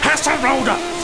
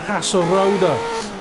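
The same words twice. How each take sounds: First: It is shouted with a German accent. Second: It is said plainly with an English accent.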